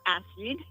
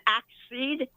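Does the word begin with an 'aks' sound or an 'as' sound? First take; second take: as; aks. First: The first c is said as an s sound. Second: The first c is said as a k sound. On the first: The speaker calls it wrong. "is not acid" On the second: The speaker calls it right. "you pronounce both the first C in the double C, like an axe seed"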